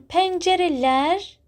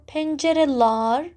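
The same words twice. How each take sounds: First: Pencereler ending in "-lær"; front-vowel suffix. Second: Pencereler ending in "-lar" instead; back-vowel suffix. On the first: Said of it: "Pencereler is better, right?". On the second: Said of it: "better or pencereler". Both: Shown as a demonstration.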